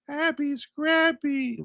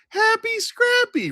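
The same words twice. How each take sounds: First: It is said in a flat, sleepy voice. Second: It is said in a very high-pitched voice.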